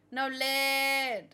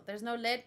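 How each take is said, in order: First: "lead" held long and louder; mock anguish, one long sustained "lead"; mock dramatic cry. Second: Said in the usual way. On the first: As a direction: stretch "lead" into a hammed-up wail. Meme repeat parodying the drawn-out yell.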